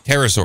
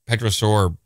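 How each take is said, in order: First: The word begins without a P sound. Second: The word begins with a clear P sound. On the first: The speaker calls it right. "My bad" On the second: The speaker calls it wrong. "pronouncing the P, the silent P, big no-no"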